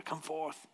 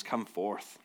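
First: A hint of grand, hushed, high fantasy command; lightly voiced epic summons on "Come forth"; epic Lord of the Rings-ish. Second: Said in the usual way. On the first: Shown as a demonstration. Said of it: "Feels Lord of the Rings-ish". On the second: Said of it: "That's a better".

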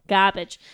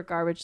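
First: GARBAGE with the R dropped, Boston style; mock Boston accent. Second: Said in the usual way. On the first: Repeats word in Boston accent.

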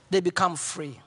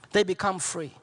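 Both takes have the same delivery.

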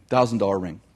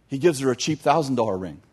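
First: Lower, dry repeat of "Thousand dollar ring"; preacher repeating the line to point out the joke; deadpan repeat. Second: Said in the usual way. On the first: Shown as a demonstration. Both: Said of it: "so it's supposed to be funny".

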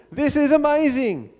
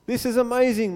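First: Higher-pitched exclamation of wonder; amazed. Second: Said in the usual way. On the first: A narrator's reading. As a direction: read it as Moses marvelling out loud. Rereads it after stressing the wonder.

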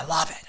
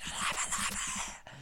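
First: Said in the usual way. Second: Whispered. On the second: Real, not acted. Repeated, fading to a whisper.

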